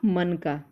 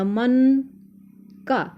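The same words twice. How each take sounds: First: It is said as one word without a pause. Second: There is a short pause between the two parts. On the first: It means a bead. "यानी कि मोती" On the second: It means relating to the mind. "मैंने थोड़ा सा विराम दिया"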